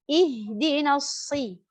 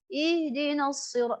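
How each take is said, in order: First: The i vowel in shi sounds clear. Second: The i vowel in shi sounds indistinct. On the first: The speaker calls it right. "kalau kita jatuhkan sedikit rahang" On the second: The speaker calls it wrong. "tanpa tersadar i itu tidak begitu jelas"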